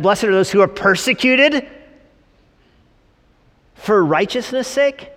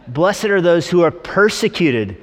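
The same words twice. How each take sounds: First: High, loud, questioning echo; mock incredulity. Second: Straight scripture reading. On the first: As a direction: repeat the verse as if it were absurd. Incredulous repeat of the verse. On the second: Acted. Reads the verse straight.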